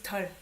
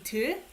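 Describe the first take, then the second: First: The vowel is the more open 'eo' sound. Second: The vowel is the close unrounded 'eu' sound. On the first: It sounds cuter. "they just uh, use 덜. Maybe sounds more cute" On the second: This is the standard form. "This is actually 들"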